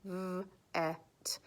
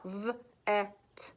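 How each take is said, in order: First: V-et whispered, v and et split; whispered sounding out. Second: V-et split into v and et; sounding out words. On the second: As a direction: break v-et into onset and rime. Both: Shown as a demonstration. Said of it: "So I sounded it out".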